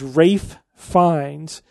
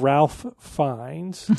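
First: The first name is said without an L sound. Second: The first name is said with an L sound. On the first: The name follows the old English pronunciation. The speaker calls it right. "the old English pronunciation is Rafe" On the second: The name is read the way it is spelled. The speaker calls it wrong. "You just did it wrong again"

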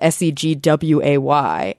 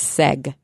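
First: The word has two syllables, ending in 'way'. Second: The word has one syllable, ending in 'g'. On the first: The speaker calls it right. "That's a different word. That's segway" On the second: The speaker calls it wrong. "because they think it's seg"

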